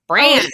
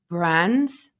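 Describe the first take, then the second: First: The vowel is nasal, in an American accent. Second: The vowel is plain, in a non-American accent. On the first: This is how Americans say it. "Kinda gotta plug your plug your nose in brands" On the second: It copies the other person's way of speaking. "I just talked like you"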